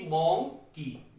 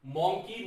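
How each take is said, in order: First: Slow 'monkey' broken into मं and की; syllable split. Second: Said in the usual way. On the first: Shown as a demonstration. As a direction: pause between the two syllables of 'monkey'. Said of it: "ये भी आपका दो syllable". ('Monkey' को धीरे, दो खंडों में बोलें) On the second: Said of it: "दो सिलेबल का है".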